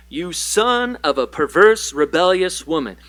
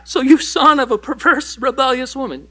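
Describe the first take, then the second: First: Said in the usual way. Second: Higher and louder, punching the insult; emphatic reread. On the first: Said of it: "I read this in the N L T". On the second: Shown as a demonstration. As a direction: hit it hard the second time for shock. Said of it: "check that out in the N L T".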